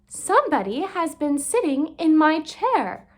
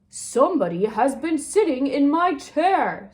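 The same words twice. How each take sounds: First: It is said in a medium-pitched voice. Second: It is said in a deep, big voice.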